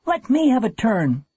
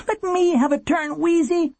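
First: High, urgent plea; boy's high, anxious cry; panicked demand. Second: Put-on very high, pleading boy's cry; high-pitched, urgent plea; begging. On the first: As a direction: demand a turn in rising panic. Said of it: "Warren was gripped by panic". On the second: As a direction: beg your sister desperately. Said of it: "he begged". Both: A narrator's reading.

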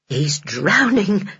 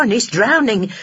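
First: Slow dawning horror; slow horrified whisper-like dread. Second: Higher, alarmed realisation; rising panic. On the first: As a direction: let the fear sink in slowly. Henny's horrified thought. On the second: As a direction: panic breaking through. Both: Acted.

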